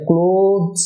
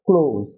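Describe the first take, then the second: First: ক্লোজ drawn out as "clo-thz"; slow ক্লোজ with an extra consonant before the final Z; TH sounded. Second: ক্লোজ as "kloz", no TH; just like "close". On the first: Teacher shows viewers the form to avoid, extra consonant. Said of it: "এটা ক্লোজ না হয়ে হবে". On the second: Teacher models the corrected word for viewers, like "close". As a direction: say ক্লোজ in one falling syllable ending in Z. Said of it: "ক্লোজ এর মতোই উচ্চারণটা হবে". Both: Shown as a demonstration.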